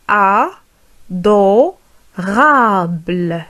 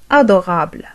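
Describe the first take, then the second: First: "Adorable" split slowly as a, do, rable; very slow "Adorable" with clear gaps inside; syllable by syllable. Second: Said in the usual way. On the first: Shown as a demonstration. Teacher modelling for learners, syllable by syllable "Adorable".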